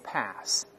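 It is said with an American accent. "美国人读成pass 都行"

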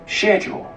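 It is said with a British pronunciation. "英式发音是schedule"

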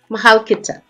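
It is said in an exaggerated, slangy accent.

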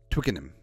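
The word is said with a British accent. "The English pronunciation of the word"

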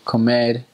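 The final r is pronounced as an r. "instead of saying, let's say, comer"

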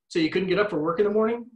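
The voice rises at the end like a question. It can sound sarcastic or judgmental. The speaker calls it wrong. "When we ask a question, that can sound a little sarcastic or a little judgmental"

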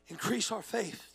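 It sounds defeated and overwhelmed.

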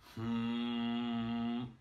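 The hum is full and supported from the diaphragm.

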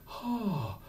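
The onset is soft with a lot of breath. The speaker calls it wrong. "we don't want a breathy"

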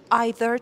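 It is said with a British pronunciation. "توی بریتیش either"

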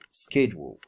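It is said in an American accent.

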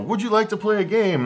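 It is said in a cheery game-show host voice.

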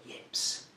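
The word is whispered. The word is treated as taboo. "I'm going to whisper the word"

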